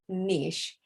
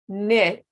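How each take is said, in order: First: The word does not rhyme with 'rich'. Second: The word rhymes with 'rich'. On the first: "I believe it is uh" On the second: "people want to say niche, niche because the riches are in the niches"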